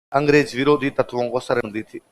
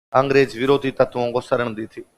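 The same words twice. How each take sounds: No difference in how they are said.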